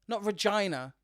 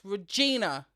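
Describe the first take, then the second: First: The name rhymes with 'vagina'. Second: The name does not rhyme with 'vagina'. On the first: The speaker calls it wrong. "all I'm hearing is vagina king" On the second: The speaker calls it right. "I need you to pronounce that correctly"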